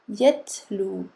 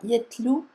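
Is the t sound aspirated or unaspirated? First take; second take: aspirated; unaspirated. First: The t is said with a puff of air. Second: The t is said without a puff of air. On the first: The speaker calls it right. "on va faire sortir le souffle" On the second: The speaker calls it wrong. "On ne dit pas yetlou"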